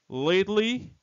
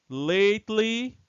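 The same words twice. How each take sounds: The two takes are said the same way.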